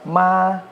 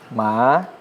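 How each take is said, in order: First: The pitch stays high and level. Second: The pitch rises from middle to high. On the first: "nada satu"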